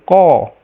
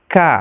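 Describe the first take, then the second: First: The k is heavy, with a raised back tongue. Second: The k is light, with a flat tongue. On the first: The speaker calls it wrong. "tambah salah" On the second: The speaker calls it right. "Jadi harus tipis k"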